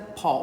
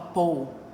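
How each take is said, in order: First: The name is said with an American vowel. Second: The name is said with a British-like vowel.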